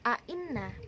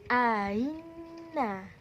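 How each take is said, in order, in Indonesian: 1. Hamzah kedua itu glottal stop yang jelas. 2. Hamzah kedua melunak menjadi bunyi y. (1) "yang pertama" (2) "disamarkan dengan huruf ya"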